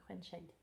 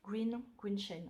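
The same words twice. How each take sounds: First: "Grain Shade" said as French "grèn chède"; "Grain Shade" French-style, before correcting it; French reading. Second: "Green, Green Shade" with an English "ee" in Green, a bit slow; "Green Shade" in hesitant French-accented English; attempted English. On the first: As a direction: read "Grain" the French way, rolled r and open è. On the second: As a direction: correct "Green" to a self-conscious English try. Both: Shown as a demonstration. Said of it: "excuserez pour mon accent anglais".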